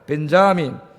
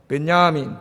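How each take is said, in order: First: The name is said with a clear J sound. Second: The name is said with a Y sound, no J. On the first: This is how Americans say it. "미국 사람들은 J를 발음을 해요" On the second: This is how Germans and others say it. "독일이나 이런 사람들은 발음 안 해요"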